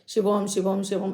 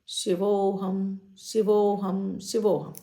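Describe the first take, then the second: First: The phrase is said quickly and hurriedly. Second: The phrase is said slowly and calmly. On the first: The speaker calls it wrong. "जल्दी जल्दी नहीं बोलना है। ... ऐसे नहीं बोलना है" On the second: The speaker calls it right. "बोलना आराम आराम से है"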